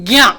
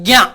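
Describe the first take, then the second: No difference in how they are said.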